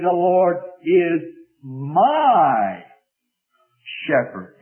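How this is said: The stress is on my.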